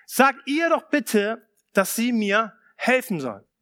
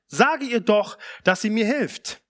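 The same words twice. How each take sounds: First: Mild exasperated appeal to Jesus; pleading complaint. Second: Said in the usual way. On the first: Retold or imitated. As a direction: lean on "Sag" like a fed-up sister. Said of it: "sie sagt zu ihm". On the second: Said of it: "sie trat herzu und sprach".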